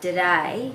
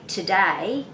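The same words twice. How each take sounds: First: The word begins with a D sound. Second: The word begins with a T sound. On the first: The speaker calls it wrong. "They would then spell that D O D A Y" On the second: The speaker calls it right. "rather than T O D A Y"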